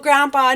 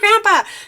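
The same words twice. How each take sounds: First: It is said in a calm, gentle tone. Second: It is said in a harsh, sharp tone. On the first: The speaker is gently correcting the person. The speaker calls it right. "You can speak up without being like, ah" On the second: The speaker is attacking the person. The speaker calls it wrong. "we're not going to be overly harsh"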